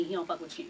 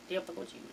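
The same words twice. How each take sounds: First: Said in the usual way. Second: Hushed mocking echo of the quote; whispered. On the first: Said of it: "repeated after quote". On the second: Shown as a demonstration. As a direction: whisper "He don't fuck with you" under the breath. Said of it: "repeated quietly".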